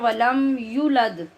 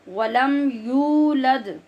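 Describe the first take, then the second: First: The vowel after the y is cut short. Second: The vowel after the y is held long. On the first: The speaker calls it wrong. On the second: The speaker calls it right.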